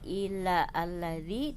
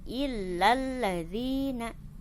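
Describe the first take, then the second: First: A separate a vowel follows illa. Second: Illa runs straight into the l, no vowel. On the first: The speaker calls it wrong. "tidak illa alladzi" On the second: The speaker calls it right. "ketika ada di tengah tidak dibaca"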